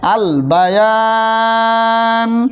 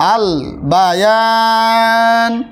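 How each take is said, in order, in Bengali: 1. শেষ স্বরটি দীর্ঘ করে টানা হয়, এবং শেষ হয় n দিয়ে। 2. শেষ স্বরটি দীর্ঘ করে টানা হয়, এবং শেষ হয় n দিয়ে।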